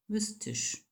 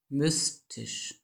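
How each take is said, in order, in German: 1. Es wird im rheinischen Akzent gesprochen. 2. Es wird langsam in Standarddeutsch gesprochen. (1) "wie Rheinländer so sprechen" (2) "Sprechen Sie das Wort mystisch doch nochmal laut und langsam"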